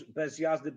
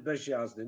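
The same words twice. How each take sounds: First: Said in the usual way. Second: "bez jazdy" said as "beż jazdy"; "bez jazdy" lower, zh before j; wrong assimilation. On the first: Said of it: "You can't do it in Polish". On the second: Shown as a demonstration. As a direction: turn the z of "bez" into zh. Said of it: "Nobody would say bez jazdy".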